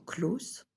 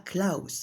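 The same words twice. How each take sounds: First: The vowel is said as a plain 'oh'. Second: The vowel is said as a diphthong 'ow'. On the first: The speaker calls it right. "Le A-U, ça se dit O" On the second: The speaker calls it wrong. "pas Klaus"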